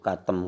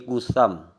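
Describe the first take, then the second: First: The name is said with a t sound. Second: The name is said with an s sound. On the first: The speaker calls it wrong. "katem katanya" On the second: The speaker calls it right. "Padahal ini kusam"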